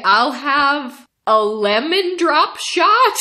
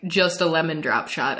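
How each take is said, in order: First: High, slow, tentative order rising at the end; unsure order. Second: Understated puzzled bartender, rising at the end. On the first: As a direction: order it as if guessing, stretched out. Unsure order, retold for laughs. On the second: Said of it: "he was so puzzled". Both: Retold or imitated.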